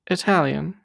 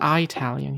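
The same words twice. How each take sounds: First: The first syllable sounds like 'ih'. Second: The first syllable sounds like 'eye'. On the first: The speaker calls it right. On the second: The speaker calls it wrong.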